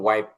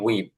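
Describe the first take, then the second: First: The vowel sounds like 'eye'. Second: The vowel sounds like 'ee'. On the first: This is the standard pronunciation. The speaker calls it right. "শুদ্ধ উচ্চারণ আসলে একটু ওয়াইপ" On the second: This is the common local pronunciation. The speaker calls it wrong. "এটা আমরা উচ্চারণ করি হচ্ছে উইপ"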